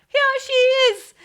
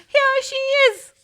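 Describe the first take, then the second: The two takes are said the same way.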